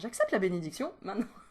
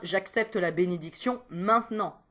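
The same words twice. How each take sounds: First: It is said with exaggerated, playful intonation. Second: It is said with plain, ordinary intonation.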